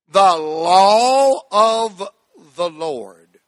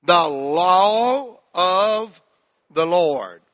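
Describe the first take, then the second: First: "The law of the Lord" stretched very slowly, "law" held. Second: "law" held long, phrase said very slowly. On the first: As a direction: draw out "law" long and slow. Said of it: "slowly now". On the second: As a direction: stretch "The law of the Lord". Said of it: "Say that little phrase with me". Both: Shown as a demonstration.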